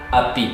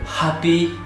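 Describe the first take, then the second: First: The word starts with a vowel, no H. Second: The word starts with an audible H sound. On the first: "kita bilang api" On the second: "Kita enggak bilang happy"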